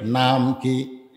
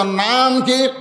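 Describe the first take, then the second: First: Said in the usual way. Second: Raised, higher call to the crowd; ringing question, first word stretched; louder prompt. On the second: Shown as a demonstration. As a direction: ask it again forcefully to rouse the crowd. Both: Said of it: "আরো জোরে কর".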